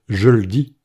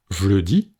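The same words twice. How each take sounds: First: "je le dis" said as "je l'dis", the E of le dropped; second E dropped. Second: "je le dis" said as "j'le dis", the first E swallowed; first E dropped. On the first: Teacher showing the second spoken variant, je l'dis. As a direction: keep the E of "je", slide "l" straight onto "dis". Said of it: "c'est le deuxième E qui tombe". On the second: Teacher showing the first spoken variant, j'le dis. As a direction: run "je" into "le" and keep the E of "le". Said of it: "c'est le premier E qui tombe". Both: Shown as a demonstration.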